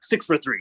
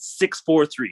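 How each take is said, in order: First: The numbers are said very quickly. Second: The numbers are said at a normal pace.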